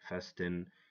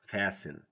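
First: The T sound is pronounced. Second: The T sound is silent. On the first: The speaker calls it wrong. "This is wrong" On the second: The speaker calls it right. "If we know the silent letters, we're gonna say"

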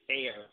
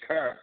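First: The vowel sounds like the one in air. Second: The vowel sounds like the one in her. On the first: This is how people outside the city talk. "You don't say care" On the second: This is how people from the city talk. "you pronounce it like you say the or you say her. Like, you say cur"

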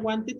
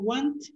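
First: The word ends with a clear extra '-ed' syllable. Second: The word ends without a clear '-ed' syllable. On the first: The speaker calls it wrong. "No se pronuncia wanted" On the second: The speaker calls it right. "se pronuncia want, pero se escribe wanted"

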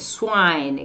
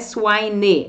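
First: The word ends on the n, with no vowel. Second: An extra vowel sound is heard after the n. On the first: The speaker calls it right. "o E como se ele nem tivesse aqui esse Ezinho" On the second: The speaker calls it wrong. "não é swine"

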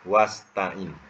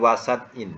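First: The s and t are joined with no vowel. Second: A vowel is heard between the s and t. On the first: The speaker calls it right. "Yang betulnya apa?" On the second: The speaker calls it wrong. "Bukan wasat in, ya, ditulis wasat in, tak ada timbangan tu"

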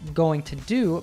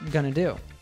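First: Each word is said fully and separately. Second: The words blend into a reduced form. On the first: "going to do becomes gonna do" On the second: "becomes gonna do"

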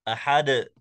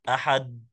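First: The final d is released with an echoing bounce. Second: The final d stops flat with no echo. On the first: The speaker calls it right. "حرف مقلقل نقول أحد" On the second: The speaker calls it wrong. "من دون قلقلة"

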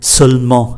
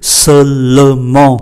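First: The word is said with two syllables. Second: The word is said with three syllables. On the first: "người ta gạch đi và chỉ còn hai" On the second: "có ba âm tiết"

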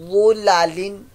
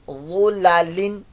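No difference in how they are said.

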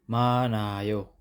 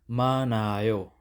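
The two takes are said the same way.

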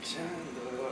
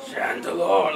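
First: It is a sad, weakening, fading voice. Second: It is a menacing, demonic attacking voice.

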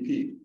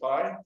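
First: The vowel sounds like the letter E. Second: The vowel is a long I sound. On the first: The speaker calls it right. "it'd be P, like the letter P" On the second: The speaker calls it wrong. "I learned it as pi, but it's never made sense because there's no long I sound"

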